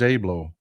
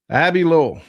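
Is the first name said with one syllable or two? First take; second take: one; two. First: The first name has one syllable, like Abe. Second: The first name has two syllables, like Abby. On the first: The speaker calls it wrong. "I thought it was Abe Lowell. My bad" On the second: The speaker calls it right. "It's pronounced Abby Lowell"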